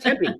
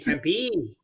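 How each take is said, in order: First: The final vowel is kept short. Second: The final vowel is drawn out long. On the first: This is the correct way to say the name. The speaker calls it right. "It's Tempe" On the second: This is how other people say the name. The speaker calls it wrong. "I don't know why they say Tempe"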